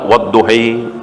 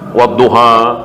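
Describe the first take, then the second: First: The final vowel is leaned toward an 'i' sound. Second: The final vowel is an open 'a' sound.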